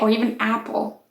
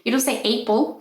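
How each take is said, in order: First: The first vowel matches the vowel in 'cap'. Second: The first vowel differs from the vowel in 'cap'. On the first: The speaker calls it right. "Or even apple, right?" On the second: The speaker calls it wrong.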